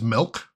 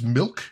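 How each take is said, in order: First: It is said in a Chicago accent. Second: It is said in a plain, neutral accent.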